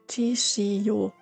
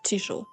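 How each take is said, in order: First: It is said as three separate syllables. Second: It is said as two syllables. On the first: The small character is read as full size. The speaker calls it wrong. "I would have pronounced it Chishiyo" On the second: The small character is read as a glide. The speaker calls it right. "instead of Chisho"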